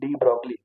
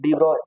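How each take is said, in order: First: The surname is said with a hard g, ending 'glee'. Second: The surname is said without g, ending in 'oy'. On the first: This is how most people read the name. The speaker calls it wrong. "सभी लोग पढ़ते हैं डी ब्रॉगली" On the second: This is the actual French pronunciation. The speaker calls it right. "एक्चुअल में पढ़ा जाता है डी ब्रॉय"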